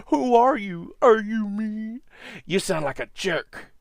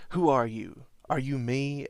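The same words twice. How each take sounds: First: High, loud mocking sneer; mocking evil double. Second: Said in the usual way. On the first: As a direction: taunt him in a high mocking voice. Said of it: "The evil version makes fun of him".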